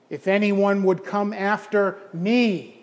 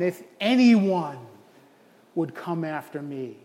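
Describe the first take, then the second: First: The word me carries the stress. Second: The word anyone carries the stress. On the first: The focus is on the one being followed. "who am I coming after? Well, it's Jesus" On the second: The focus is on who may follow. "You emphasize the anyone"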